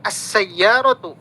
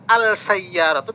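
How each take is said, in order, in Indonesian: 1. Bunyi l menyatu menjadi bunyi s yang dobel. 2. Bunyi l diucapkan sebelum s.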